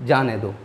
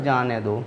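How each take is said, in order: The two takes are said the same way.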